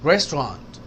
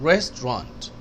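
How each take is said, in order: No difference in how they are said.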